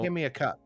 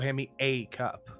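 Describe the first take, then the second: First: The word 'a' is weak and unstressed. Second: The word 'a' is a full, stressed 'ay'. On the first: The speaker calls it right. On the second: The speaker calls it wrong.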